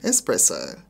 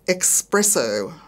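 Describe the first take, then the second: First: It uses the standard pronunciation. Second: It uses the Australian nonstandard pronunciation. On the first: The speaker calls it right. "instead of" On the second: The speaker calls it wrong. "Wayne words are Australian expressions not pronounced correctly"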